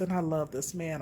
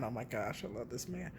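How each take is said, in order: First: Said in the usual way. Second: I love this man, dropped almost to a murmur; much softer. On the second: Real, not acted. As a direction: say it quietly to yourself, much softer. Repeats the phrase softer.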